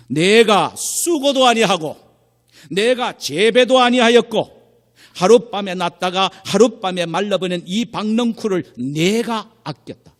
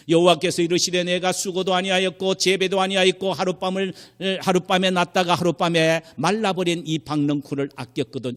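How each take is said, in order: First: Loud, high, with 내가 drawn out each time; God speaking emphatically. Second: High, even recitation without pauses; scripture reading. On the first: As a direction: hammer 내가 slowly and forcefully as God. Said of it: "하나님은 이렇게 말씀하십니다". (내가를 길게 힘주어 외치는 하나님 말씀) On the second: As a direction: recite the verse straight through as written. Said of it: "여기 지금 성경에 보면요". (높고 고른 어조의 성경 낭독) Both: Retold or imitated.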